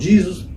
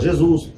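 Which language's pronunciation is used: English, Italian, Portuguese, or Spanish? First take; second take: English; Portuguese. First: It is pronounced the American English way. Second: It is pronounced the Portuguese way. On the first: "os americanos falam Jesus" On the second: "A gente aqui em português fala Jesus"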